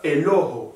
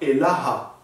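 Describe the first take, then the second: First: The vowels are pronounced as an O. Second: The vowels are pronounced as an open A. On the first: Another dialect says it this way. "c'est avec un A ou un O" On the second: One dialect says it this way. "c'est avec un A ou un O"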